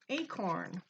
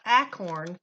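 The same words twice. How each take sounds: First: The first vowel sounds like the letter A. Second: The first vowel is a short A sound. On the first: The speaker calls it right. "the A does say its name" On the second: The speaker calls it wrong. "not acorn. That wouldn't make sense"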